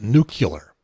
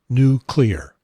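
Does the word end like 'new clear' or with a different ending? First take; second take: different; new clear. First: The word does not sound like 'new clear'. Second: The word sounds like 'new' plus 'clear'. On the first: The speaker calls it wrong. "a lot of people pronounce it nuclear" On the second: The speaker calls it right. "N U, new, C L E A R, clear"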